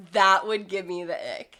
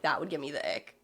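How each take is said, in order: First: Said in the usual way. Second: Inner-voice muttered ick. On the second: Retold or imitated. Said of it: "I'm like".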